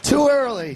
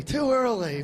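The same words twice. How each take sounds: First: "Too" punched loud and high, early falling; first take louder, "Too" leaned on; stress on too. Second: Said in the usual way. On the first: Shown as a demonstration. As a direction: hit "Too" hard and loud.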